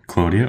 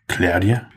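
First: The first syllable does not sound like cloud. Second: The first syllable sounds like cloud.

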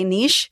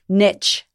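First: It is said the Australian way. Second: It is said the American way.

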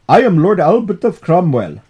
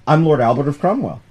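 First: It is spoken in a put-on Indian accent. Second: It is spoken in the speaker's ordinary accent. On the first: "I just did an Indian accent for an old British guy" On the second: "I'll just drop it"

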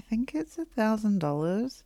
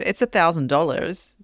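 First: It sounds hesitant and unsure. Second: It sounds calm and confident.

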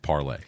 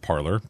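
First: The name ends with an 'ay' sound. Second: The name ends with an 'or' sound. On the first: This is the original pronunciation of the name. The speaker calls it right. "It's always been enunciated Parlay" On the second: This is the pronunciation most people adopted. The speaker calls it wrong. "everybody else ran with it, Parlor, because it's American"

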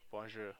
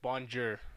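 First: The sounds are blended smoothly together. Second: Each sound is enunciated separately and heavily. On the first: It sounds less English. The speaker calls it right. "don't enunciate the letters so much, like bonjour" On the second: It sounds like an English speaker. The speaker calls it wrong. "that just sounds awful"

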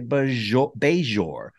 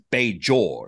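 First: The J is softened into a ZH sound. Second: The J is a plain, hard J sound. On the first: "And other people I've heard say Bajor" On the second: "So he just is just a J"

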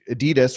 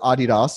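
First: The name is said the speaker's usual way. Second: The name is said the European way.

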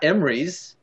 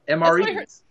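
First: The term is run together as one word. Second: The term is said as separate letters. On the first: The speaker calls it wrong. "Not Emrys" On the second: The speaker calls it right.

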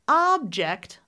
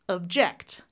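First: The stress falls on the first syllable. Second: The stress falls on the second syllable.

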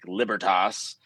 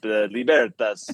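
First: It is pronounced in an Anglicized American style. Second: It is pronounced in an expressive Italian style. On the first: This is the common American way. "the kind of Anglicanized Germanic Libertas, which is how most Americans pronounce it" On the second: This way sounds more romantic. "then there's like the Italian, like you hold your hands up"

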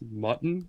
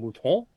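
First: It is said as the English word mutton. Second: It is said with an exaggerated French accent. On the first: "they were insisting it's pronounced mutton, like the deer meat" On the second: "I kept saying an increasingly French accent"

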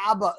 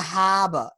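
First: The word begins with no H sound. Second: The word begins with an H sound. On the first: "there was no H involved in that" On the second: "it wasn't even the Haba"

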